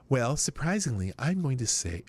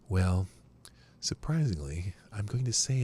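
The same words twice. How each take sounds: First: It is read in an ordinary speaking voice. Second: It is read in a smooth radio-announcer voice.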